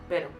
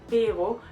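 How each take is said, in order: First: The first vowel is short and clipped. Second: The first vowel is stretched long and stressed. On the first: "the Spanish speaker shortens the, this syllable and would say and stress it more like pero" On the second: "a German native speaker would tend to say pero and put the stressing of the syllable on the first one, would um, stress the E and stretch it longer"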